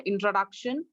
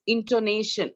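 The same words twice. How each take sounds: First: "introduction" with DUC in the third syllable; wrong word. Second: "intonation" with NAY in the third syllable; correct word. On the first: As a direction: cite "introduction" as the word to reject. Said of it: "the word is not introduction". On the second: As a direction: model "intonation" as the right word. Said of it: "the word is not introduction, it's intonation". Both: Shown as a demonstration.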